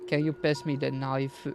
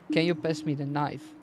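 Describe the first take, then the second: First: Knife is said with Japanese-style syllables, like naifu. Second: Knife is said with a plain English pronunciation. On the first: A Japanese listener will more likely understand it. The speaker calls it right. "you pronounce it in their alphabet" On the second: A Japanese listener will not understand it. The speaker calls it wrong. "They will not understand"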